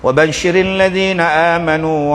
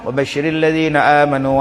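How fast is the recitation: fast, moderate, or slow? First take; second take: moderate; fast. First: It is recited at a moderate, slightly quick pace. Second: It is recited quickly, at a rapid pace. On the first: This is the tadwir way of reciting. "dia baca laju sikit" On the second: This is the hadr way of reciting, for revising. "Laju tapi tajwid jaga"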